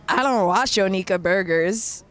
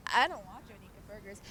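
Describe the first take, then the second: First: Louder, disgusted flat retort. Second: Soft, breathy-free disgusted mutter under the breath. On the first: Friend retorting in disgust to Monty's joke, disgusted. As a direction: spit it out like it's beneath her. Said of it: "disgusted like this". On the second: Narrator replaying friend's disgusted line to viewers, quiet disgust. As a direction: repeat it as a quiet sneer. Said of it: "she said it disgusted". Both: Retold or imitated.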